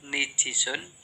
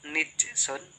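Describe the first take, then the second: First: The n takes i and the j takes i. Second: The n takes i and the j has none. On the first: "kedua nijisun" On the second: "keempat nijsun"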